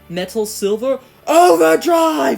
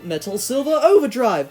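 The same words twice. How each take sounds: First: It is yelled loudly and aggressively. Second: It is said in a calm, restrained voice. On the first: The speaker calls it wrong. "he's like just yelling it" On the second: The speaker calls it right. "he's kind of just more calm about it"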